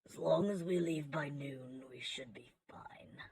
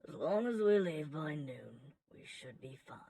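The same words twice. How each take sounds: First: It is said in an aggressive tone. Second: It is said in a calm tone.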